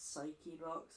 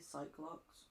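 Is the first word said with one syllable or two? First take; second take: two; one. First: The first word has two syllables. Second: The first word has one syllable. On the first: The speaker calls it wrong. "I hate the fact it's psyche locks" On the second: The speaker calls it right. "It should be psych locks"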